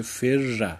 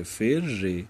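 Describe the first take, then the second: First: «فر» said fer-ra, doubled r then "a"; fatha ending. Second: «فر» said fer-re, doubled r then "e"; kasra ending. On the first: Teacher resolving two silent r's, «فر» said as fer-ra. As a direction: end «فر» on a short "a". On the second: Teacher offering the other option, «فر» said as fer-re. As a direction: end «فر» on "e". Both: Shown as a demonstration.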